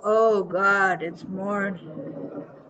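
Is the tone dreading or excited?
dreading. It sounds weary, groaning about the morning.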